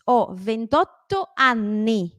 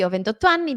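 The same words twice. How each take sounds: First: "ventotto anni" very slow, tt and nn held; exaggerated double consonants. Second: Said in the usual way. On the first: Shown as a demonstration. Teacher modelling the answer, drawn-out double consonants. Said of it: "Trato de alargarla".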